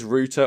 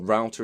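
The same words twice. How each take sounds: First: It is pronounced the British way, like 'rooter'. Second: It is pronounced the American way, like 'rowter'.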